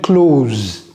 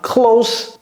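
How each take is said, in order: First: The s is a buzzing, voiced z sound. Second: The s is a hissing, voiceless sound. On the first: The speaker calls it wrong. "J'ai pas dit close to the pharmacy" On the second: The speaker calls it right. "ça se prononce comme si c'était deux S"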